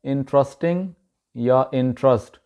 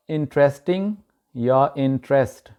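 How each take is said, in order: First: इंटरेस्टिंग and इंटरेस्ट with 'trust' in place of 'trest'; local mispronunciation. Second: इंटरेस्टिंग and इंटरेस्ट with an 'e' in 'trest'; correct pronunciation. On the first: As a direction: say इंटरेस्टिंग as in-TRUS-ting, इंटरेस्ट as in-TRUST. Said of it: "इसको वहाँ पे बोला जाता है". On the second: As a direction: say इंटरेस्टिंग as IN-tres-ting, इंटरेस्ट as IN-trest. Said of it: "इसकी सही तलफ़ुज़ है". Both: Shown as a demonstration.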